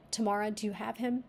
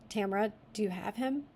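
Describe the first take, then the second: First: Tamara said as tuh-MAR-uh; Tamara pronunciation. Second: Tamara said as TAM-ruh; Tamra pronunciation. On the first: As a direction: stress the middle syllable of Tamara, tuh-MAR-uh. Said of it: "I'm gonna read it as Tamara". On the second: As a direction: stress the first syllable of Tamara, TAM-ruh. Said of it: "Tamra or Tam-, or Tamara". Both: Shown as a demonstration.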